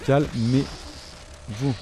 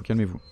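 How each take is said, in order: First: Very slow, stretched calmez-vous; long drawn-out plea. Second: Said in the usual way. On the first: Real, not acted. Gamer begging the fast monsters, calmez-vous stretched slowly. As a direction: drag out every syllable of calmez-vous.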